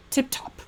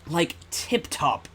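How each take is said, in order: First: High, chirpy British exclamation; posh professor. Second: Slow mock British accent saying Tip Top. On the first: Acted. Professor approving the assistant, chirpy high British exclamation. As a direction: pop it out like a jolly old professor. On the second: Streamer mocking the game's fake Britishness, slow mock British accent. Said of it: "this was made by Americans".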